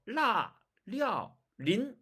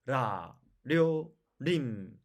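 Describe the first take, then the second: First: 라, 려, 린 higher, each with a firm L; strong L starts on 라, 려, 린; Chinese L. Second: 라, 료, 림 each with a light tapped R; Korean R. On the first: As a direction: press the tongue on 라, 려, 린. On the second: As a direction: flick the R on 라, 료, 림. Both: Shown as a demonstration. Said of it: "완전히 다르죠?".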